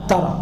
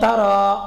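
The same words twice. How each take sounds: First: The final vowel is cut short. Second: The final vowel is held long. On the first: The preceding lam shortens the verb. "maka dibuang huruf panjang" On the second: This is the base form of the verb. "Aslinya tara"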